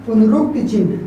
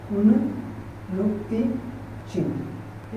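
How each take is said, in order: First: Said in the usual way. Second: Slow soft repeat. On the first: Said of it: "teacher introduces term". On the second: Shown as a demonstration. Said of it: "teacher repeats term slowly".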